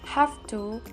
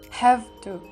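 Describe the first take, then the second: First: Have ends in an f sound. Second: Have ends in a v sound. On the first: The speaker calls it right. "with an f sound rather than the v sound" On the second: The speaker calls it wrong.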